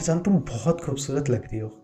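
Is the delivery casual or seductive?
casual. It is said in a relaxed, casual affectionate tone. The speaker is relaxing together affectionately. "Park में बैठ के romantic होके कहना"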